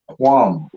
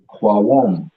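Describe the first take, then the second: First: The word is said as one syllable. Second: The word is split into two syllables. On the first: The speaker calls it right. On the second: The speaker calls it wrong.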